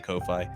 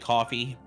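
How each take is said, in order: First: The name rhymes with lo-fi. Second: The name sounds like the drink coffee. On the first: "but I do lo-fi, so I say Ko-Fi" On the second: "it's actually coffee"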